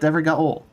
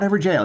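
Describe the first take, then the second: First: The last syllable is said with a hard 'g'. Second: The last syllable is said like 'jail'. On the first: The speaker calls it right. "it's Evergowl" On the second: The speaker calls it wrong. "Not Everjail"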